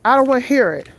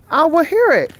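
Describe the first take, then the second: First: Said in the usual way. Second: Exasperated refusal. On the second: Real, not acted. Grieving walker snapping at commenters, exasperated and raised. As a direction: shut the critics down, voice rising. Repeats refusal, second time louder.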